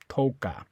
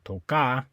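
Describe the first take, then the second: First: The stress is on the first syllable. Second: The stress is on the last syllable. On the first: The speaker calls it right. "you say toca" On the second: The speaker calls it wrong. "You don't say toca"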